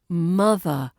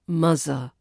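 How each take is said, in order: First: The middle consonant is a voiced th. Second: The middle consonant is a z sound. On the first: The speaker calls it right. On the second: The speaker calls it wrong. "not muzzer"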